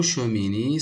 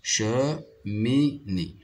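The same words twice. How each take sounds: First: Said in the usual way. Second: "Cheminée" as che... mi... née, half pace; split into syllables. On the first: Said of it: "Le mot cheminée". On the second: Shown as a demonstration. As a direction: say "Cheminée" in three isolated beats. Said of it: "se compose de trois syllabes".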